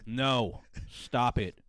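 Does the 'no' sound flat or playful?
flat. It sounds flat and serious, like a real refusal. The refusal sounds genuine. "you get a bad reading"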